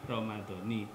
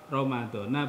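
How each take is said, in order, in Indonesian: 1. Kata ini berakhir dengan vokal i. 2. Kata ini berakhir dengan vokal a. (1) "bukan Ramadhani" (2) "maka dibaca Ramadhana"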